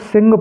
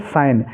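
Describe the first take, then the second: First: The g is sounded, with a short i vowel. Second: The g is silent, with a long i vowel. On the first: The speaker calls it wrong. "कुछ बच्चे इसको सिंग पढ़ते हैं, सिंग नहीं पढ़ना है" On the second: The speaker calls it right. "S I G N को हम साइन पढ़ेंगे"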